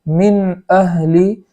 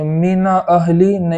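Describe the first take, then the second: First: The n closes the syllable with no vowel. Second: A vowel is added after the n sound. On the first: The speaker calls it right. "बल्कि मिन अहली इस तरीके से पढ़ेंगे" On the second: The speaker calls it wrong. "इस तरीके से नहीं पढ़ेंगे"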